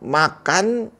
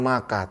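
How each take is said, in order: First: The final N sound is clearly heard. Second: The final N sound is dropped.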